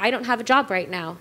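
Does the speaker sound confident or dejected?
confident. It sounds upbeat, relaxed and self-assured. Being jobless sounds like an opportunity. The speaker calls it right.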